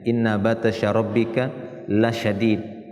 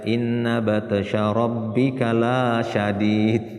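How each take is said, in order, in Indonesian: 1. Vokal pada 'la' dibaca pendek. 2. Vokal pada 'la' dibaca panjang. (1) "la-nya itu pendek" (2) "jangan dibaca"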